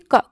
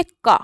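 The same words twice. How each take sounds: First: क with a short vowel, no long aa. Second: का with a drawn-out aa sound; long का. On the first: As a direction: say just क, clipped and short. (छोटा क, बिना आ की मात्रा के) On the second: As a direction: stretch the vowel in का. (लंबी आ की मात्रा वाला का) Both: Shown as a demonstration. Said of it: "कबूतर नहीं बोलेंगे".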